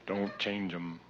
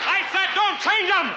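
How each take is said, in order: First: Soft demo. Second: High, slow, hammed-up yell; mock furious shout. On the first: Shown as a demonstration. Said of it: "It's very emphatic". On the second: Comedian yelling at the light crew, mock furious shout. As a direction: bellow it at the lighting guy in fake rage. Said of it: "you asshole".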